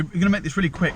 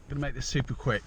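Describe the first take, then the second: First: Higher, brighter second take; upbeat restart. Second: Said in the usual way. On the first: Real, not acted. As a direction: kick it off with energy.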